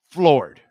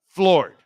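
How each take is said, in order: First: Floored said loud and flat-out; punched word. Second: Floored said louder and higher; punched again higher. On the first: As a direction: hit Floored hard and loud. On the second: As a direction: slam Floored even harder. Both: Shown as a demonstration.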